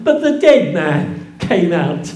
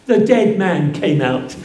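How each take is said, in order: First: Dead hit hard, with a light laugh; stress on dead. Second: Said in the usual way. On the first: Shown as a demonstration. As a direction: punch the word dead. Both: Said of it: "Not the living one".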